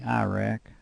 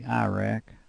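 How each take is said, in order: First: It is said in a Tennessee accent. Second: The same.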